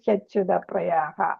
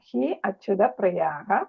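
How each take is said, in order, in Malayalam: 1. hi ഉം acyuta ഉം ചേർന്ന് hyacyuta ആയി പറയുന്നു. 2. hi ഉം acyuta ഉം വേറെ വേറെ വാക്കുകളായി പറയുന്നു. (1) "അല്ലാത്തത് ഹ്യച്യുത പ്രിയാഹ എന്നും വായിക്കാം" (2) "അങ്ങനെ വായിക്കാം"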